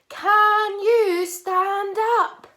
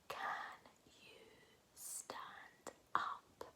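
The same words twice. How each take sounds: First: It is said in a big, loud voice. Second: It is whispered very quietly.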